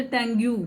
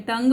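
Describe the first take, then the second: First: टंग्यू said with an extra yoo sound after the g; wrong way with ue. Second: टंग said as one syllable ending on g; silent ue. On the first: Teacher showing class the wrong tongue-yoo. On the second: Teacher showing class how tongue ends on g. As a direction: clip टंग off at the g, no yoo after it. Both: Shown as a demonstration. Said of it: "हम ये नहीं बोलते टंग्यू".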